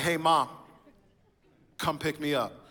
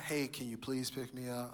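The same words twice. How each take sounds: First: Louder, blunt order to Mom; rude demand. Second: Softer, sweet and polite asking; polite request. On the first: Teen son demanding his mom pick him up, rude and loud. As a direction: bark it like a bossy teen. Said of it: "That's so rude". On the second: Son politely asking his mom for a ride, soft and sweet. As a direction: ask nicely, like a good son. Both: Retold or imitated.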